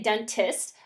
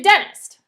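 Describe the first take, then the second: First: The middle T sound is clearly pronounced. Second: The middle T sound is left out. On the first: "most of the time I don't say dentist" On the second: "I say dentist. And I kind of get rid of that middle T"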